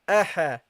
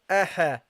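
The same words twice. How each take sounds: The two takes are said the same way.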